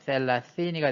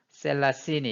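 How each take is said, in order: First: The consonants are th sounds, tongue between teeth. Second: The consonants are plain hissing s sounds. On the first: "셀라시니가 돼야 되는데" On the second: "S 발음처럼 해서 셀라시니 이렇게"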